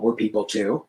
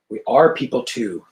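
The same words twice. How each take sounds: First: Said in the usual way. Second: "are" leaned on with a falling tune; stress on ARE. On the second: Acted. Rourke correcting Samantha, stressing "are". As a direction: press the word "are".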